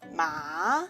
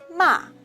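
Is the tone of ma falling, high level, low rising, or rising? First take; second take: rising; falling. First: The pitch rises from middle to high. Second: The pitch falls sharply from high. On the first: "Rising tongue, the second tongue" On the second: "The last one is a falling tongue"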